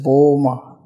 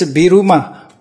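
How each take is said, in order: First: It is said as two syllables, Bur-ma. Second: It is said as three syllables, Bi-ru-ma. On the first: "According to German pronunciation" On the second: "In Japanese"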